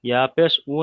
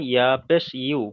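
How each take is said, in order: First: ইয়া পেশ উ ending on a bare 'u' vowel; ইয়া পেশ উ, last syllable just 'oo'; mistaken reading. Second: ইয়া পেশ ইউ ending on a clear y-glide, 'yoo'; ইয়া পেশ ইউ, last syllable said 'yu'; corrected reading. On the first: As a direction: show the error, উ without its y glide. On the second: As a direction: model the fix, ইউ with the glide before 'oo'. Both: Shown as a demonstration. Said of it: "ইয়া পেশ উ নয়".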